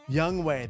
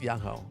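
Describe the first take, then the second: First: The second syllable sounds like 'way'. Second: The second syllable sounds like 'ho'. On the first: The speaker calls it right. "that's right" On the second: The speaker calls it wrong. "Young Ho's not right"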